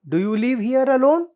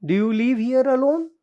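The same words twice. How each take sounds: The two takes are said the same way.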